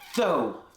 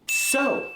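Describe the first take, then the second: First: It starts with a lisped TH sound. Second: It starts with a clear hissing S sound. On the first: The speaker calls it wrong. "they make a T H sound for that S" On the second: The speaker calls it right. "that midline airflow for that S sound"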